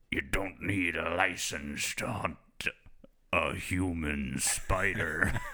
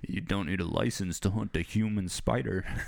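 First: It is said deadpan in a fake fisherman accent. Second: It is said in his normal voice.

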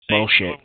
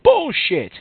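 First: The word is said at a normal calm volume. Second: The word is screamed very loudly.

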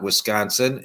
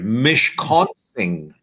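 First: The word begins with a 'w' sound. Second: The word begins with an 'm' sound. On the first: This is the usual English form of the name. The speaker calls it wrong. "Wisconsin is not Wisconsin" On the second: This is the original Ojibwe form of the name. The speaker calls it right. "It's Mish with an M as in Mary"

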